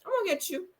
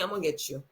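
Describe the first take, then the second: First: Same threat jumped up high and sing-song; high mocking threat. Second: A low, soft threat, muttered under the breath; low menacing threat. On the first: Imitating Diana taunting Sutton, high and mocking. Repeated threat, second take. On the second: Retold or imitated. Imitating Diana threatening Sutton, low and soft. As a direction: quietly promise revenge. Repeated threat, first take.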